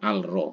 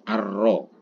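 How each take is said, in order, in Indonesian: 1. 'l' diucapkan dengan jelas sebelum 'r'. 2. 'l' menyatu menjadi bunyi 'r' yang ganda. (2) "alnya itu dimasukkan di hurufnya"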